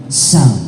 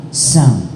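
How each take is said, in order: Both takes have the same delivery.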